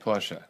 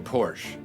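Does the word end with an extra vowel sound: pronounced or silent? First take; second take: pronounced; silent. First: The word ends with an added er vowel. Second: The word ends on the sh sound. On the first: The speaker calls it right. "I used to say this one wrong, and I say it right now" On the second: The speaker calls it wrong. "I used to say Porsche"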